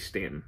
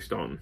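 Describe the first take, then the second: First: The first vowel sounds like the 'a' in 'Stan'. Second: The first vowel sounds like the 'aw' in 'dawn'. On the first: This is how the locals say it. "I think some of them say Stanton. I think they pronounce it that way" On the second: This follows the spelling. "I'm going to say Staunton because that's how it's spelled"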